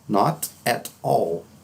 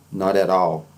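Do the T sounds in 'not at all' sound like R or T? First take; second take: T; R. First: The T sounds are said as clear T sounds. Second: The T sounds are softened into an R-like tap.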